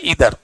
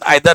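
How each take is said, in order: First: The first vowel sounds like 'ee'. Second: The first vowel sounds like 'eye'. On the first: This is the real pronunciation. The speaker calls it right. "इसका real जो है pronunciation" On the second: This is how most people say it. The speaker calls it wrong. "मैक्सिमम आदमी का pronunciation आइदर है"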